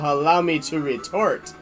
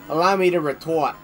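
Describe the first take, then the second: First: It is said in the speaker's normal accent. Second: It is said in a Boston accent. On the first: The speaker calls it wrong. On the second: The speaker calls it right.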